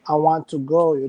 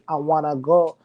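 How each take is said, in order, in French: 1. Les mots want et to se prononcent séparément. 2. Want et to se fondent en wanna. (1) "c'est seulement quand tu dis I want to go" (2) "tu dis I wanna go"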